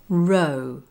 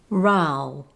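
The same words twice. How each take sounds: First: The vowel is the O sound, as in no. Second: The vowel is the ow sound, as in cow.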